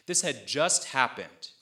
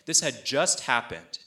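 The two takes are said the same way.

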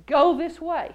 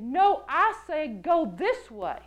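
First: Quick, louder mild command; lightly voiced prompting; inner voice command. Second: Slow, lightly authoritative correction; a measured hint of fatherly authority; firm fatherly voice. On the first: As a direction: give a brisk, urging instruction. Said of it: "I heard this voice say". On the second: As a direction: overrule gently but firmly, drawing it out. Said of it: "very authoritative sound to the voice".

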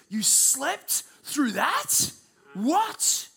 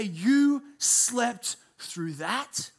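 First: Very slow, high incredulous question; incredulous friends. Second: Mild disbelief. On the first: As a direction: drag it out in disbelief. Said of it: "they would say this". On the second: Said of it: "and say". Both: Retold or imitated.

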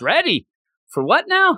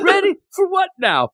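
First: High, puzzled mumble; clueless reply. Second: High, puzzled echo of ready for what now; clueless reply. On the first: Mash answers the challenge, puzzled. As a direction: play it dumb, high. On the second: Re-quoting Mash's clueless answer, high and puzzled. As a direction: toss it off high and oblivious. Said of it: "you got cream". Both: Retold or imitated.

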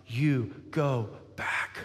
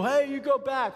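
First: Low, slow, word by word; still small voice. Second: Higher, brusque call; mock stern parent. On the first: Acted. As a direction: send him back gently and deliberately. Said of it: "show up in a still small voice". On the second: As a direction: send the child off sharply, hammed-up. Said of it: "and you don't go".

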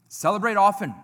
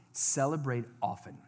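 First: Emphatic repeat. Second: Said in the usual way. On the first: Shown as a demonstration. Preacher repeating his final point to the church, emphatic and loud. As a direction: Celebrate often said louder and higher, stressing often.

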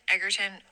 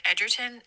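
First: "Egerton" with a hard g, as Eggerton; hard-g pronunciation. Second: "Egerton" with a soft g, as Edgerton; soft-g pronunciation. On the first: Correcting the actor's surname unsurely, "Egerton" said with a hard g. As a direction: say "Egerton" starting like "egg". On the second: Unsure of the actor's surname, "Egerton" said with a soft g. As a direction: say "Egerton" starting like "edge". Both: Real, not acted. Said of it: "I don't know".

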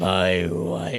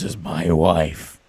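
First: Deep put-on voice; low register. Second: Deep put-on podcast voice; low register. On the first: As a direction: lower register, slowly. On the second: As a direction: drop the voice low. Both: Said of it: "talk at this register".

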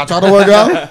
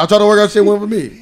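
First: Raised, laughing mock complaint; quoting Patrice. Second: Raised, laughing retelling; quoting Patrice again. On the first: Friend retells Patrice's diet joke, laughing. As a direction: laugh through a pitched-up whine. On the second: Retold or imitated. Friend repeats Patrice's joke, laughing. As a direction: laugh it out, pitched up. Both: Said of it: "He said".

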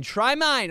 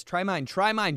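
First: Insistent offer. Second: Said in the usual way. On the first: Retold or imitated. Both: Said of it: "they're like".

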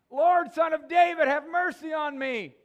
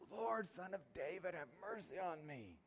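First: Full-throated cry, much higher and louder; top of his lungs. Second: A hint of a yell, no louder than usual; yelled all the louder. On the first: Acted. Blind beggar crying out to Jesus in a full-lung shout. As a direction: bellow a desperate plea for mercy. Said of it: "the language there is like the top of his lungs". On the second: Beggar calling to Jesus again, a mild mock yell. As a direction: lift the pitch a little but keep the volume down. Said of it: "it says he yelled all the louder".

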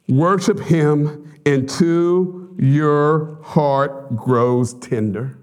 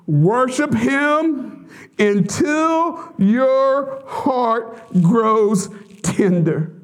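First: Slow, every word of "worship him until your heart grows tender" leaned on; slow emphatic charge. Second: Lifted higher, each word of "Worship him until your heart grows tender" drawn out; repeated higher and slower. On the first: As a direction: drive the command home word by word. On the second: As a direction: say it again, higher, pleading. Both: Shown as a demonstration. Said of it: "You hear me?".

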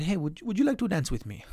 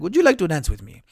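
First: Put-on slipped into a faint Spanish accent; quick, lightly accented invitation; a hint of Antonio Banderas's Spanish accent; accidental accent. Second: Said in the usual way. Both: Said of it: "I didn't mean to do the accent".

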